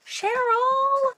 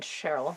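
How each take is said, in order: First: Squealing the name much higher and louder; overjoyed cry of the name; excited shout. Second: Said in the usual way. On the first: Real, not acted. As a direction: call out her name in pure delight. Thrilled at a friend's gift.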